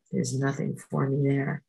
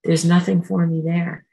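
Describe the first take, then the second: First: Said in the usual way. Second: Nothing stressed, louder; firm mantra. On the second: Shown as a demonstration. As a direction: say it with resolve. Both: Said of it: "I'll just go".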